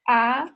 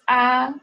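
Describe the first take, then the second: First: The pitch rises toward the end. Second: The pitch stays high and level. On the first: "the second one is like you go uphill" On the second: "The first one is very straightforward"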